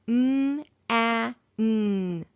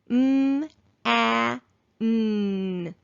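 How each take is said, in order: First: The sounds are said a little faster. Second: The sounds are said slowly and apart. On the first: "a little faster" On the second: "slowly at first"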